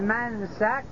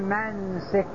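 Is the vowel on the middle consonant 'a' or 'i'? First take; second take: a; i. First: The s is followed by an a vowel. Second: The s is followed by an i vowel. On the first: "يصح أن نفتح السين" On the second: "أو أن نكسرها"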